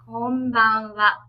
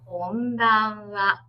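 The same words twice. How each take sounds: First: It is said fast. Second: It is said slowly.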